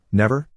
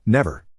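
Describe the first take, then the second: First: "Never?" with a rising question tune; questioning rise. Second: "Never." with a falling, settled tune; firm statement. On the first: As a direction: ask "Never?" with the pitch rising at the end. Child asks narrator in disbelief. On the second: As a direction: answer "Never." with the pitch falling to close it. Narrator firmly answers the child. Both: Acted.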